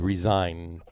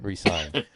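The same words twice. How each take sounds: First: The middle consonant is a buzzing z sound. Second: The middle consonant is a hissing s sound. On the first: He would quit. The speaker calls it right. "I would put a, a hard z on the s in that word resigned" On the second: He would sign again. The speaker calls it wrong. "not resign"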